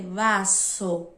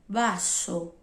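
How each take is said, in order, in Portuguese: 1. A palavra começa com o som de v. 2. A palavra começa com um som parecido com b. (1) "a gente não vai ler vaso" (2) "mas sim vaso"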